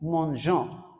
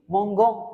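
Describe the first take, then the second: First: The g is said as a soft zh sound. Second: The g is said as a hard g sound. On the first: The speaker calls it right. "So then it will sound like this" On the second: The speaker calls it wrong. "That is breaking the pronunciation, and that is wrong"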